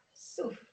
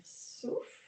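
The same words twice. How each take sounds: First: Said in the usual way. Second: Breathed-out cue. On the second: Shown as a demonstration.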